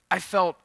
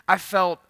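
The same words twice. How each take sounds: The two takes are said the same way.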